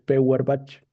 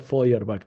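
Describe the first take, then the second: First: The name is read letter by letter as spelled. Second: The name is said with German pronunciation. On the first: The speaker calls it wrong. "se escribe Feuerbach" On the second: The speaker calls it right. "pero se pronuncia Feuerbach"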